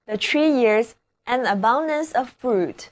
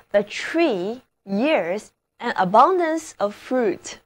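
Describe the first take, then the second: First: Said in the usual way. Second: Slow first reading of the example; slow model reading. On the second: Shown as a demonstration. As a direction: read it slowly so learners follow. (慢速朗读例句)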